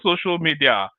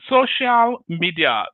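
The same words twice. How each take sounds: First: It has a non-Nigerian English inflection. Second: It has a Nigerian English inflection. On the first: "not social media" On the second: "they call this social media in Nigeria now"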